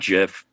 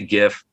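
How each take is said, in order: First: The word begins with a soft G sound. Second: The word begins with a hard G sound. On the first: The speaker calls it wrong. "not GIF ... that's peanut butter to me" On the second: The speaker calls it right. "I say GIF"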